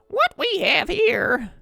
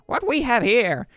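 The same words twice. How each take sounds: First: It is a frail old grandmother voice. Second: It is a gruff drill-sergeant voice. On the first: "That's even worse. That's like Grandma" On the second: "That's a terrible Im- impression of Major Payne"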